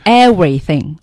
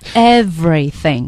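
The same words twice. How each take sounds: First: The middle consonant is a w sound. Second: The middle consonant is a v sound. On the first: The speaker calls it wrong. "有人要是再念成everything, 小心了哟" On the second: The speaker calls it right. "你应该第一时间知道这个everything 是不对的"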